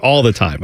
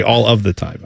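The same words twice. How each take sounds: First: Said in the usual way. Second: "All of the time" with "of" fully sounded; full phrasing. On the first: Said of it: "I would not just be like". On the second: Shown as a demonstration. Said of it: "I would say".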